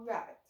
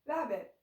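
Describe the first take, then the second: First: The first sound is an R sound. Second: The first sound is a W sound.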